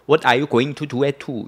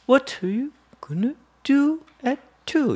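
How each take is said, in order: First: The sentence is said in one flat even tone. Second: The sentence has lively rhythm and varied intonation. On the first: The speaker calls it wrong. "이렇게 읽으면 못 알아들어요. 똑같이 말을 하면" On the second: The speaker calls it right. "이렇게 리듬 있게 읽어야지"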